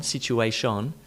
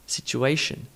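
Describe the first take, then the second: First: Situation ending in "shon", rising; wrong full vowel. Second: Situation ending in reduced "shun"; schwa ending. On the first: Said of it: "not on". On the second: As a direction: reduce the last vowel of situation to uh. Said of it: "In, in". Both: Shown as a demonstration.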